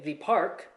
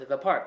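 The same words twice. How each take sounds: First: 'The' is said with the before-vowel form. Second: 'The' is said with the before-consonant form. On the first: The speaker calls it wrong. "it sounds a little bit weird" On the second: The speaker calls it right. "it's the park"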